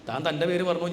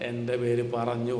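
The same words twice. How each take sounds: First: Said in the usual way. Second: Slow, with പേര് pressed and lengthened; slow, stressed. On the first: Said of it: "ഞാൻ എൻ്റെ പേര് പറഞ്ഞു". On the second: Shown as a demonstration. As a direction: lean on പേര്, word by word. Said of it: "ഞാൻ". (പേര് എന്ന വാക്കിന് ഊന്നൽ നൽകി പതുക്കെ)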